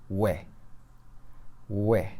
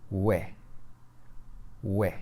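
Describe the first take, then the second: The two takes are said the same way.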